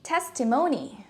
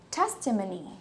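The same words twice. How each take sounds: First: The o is a full vowel, American style. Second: The o is reduced to schwa, British style. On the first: "if you're using an American accent" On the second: "the O would change into a schwa sound"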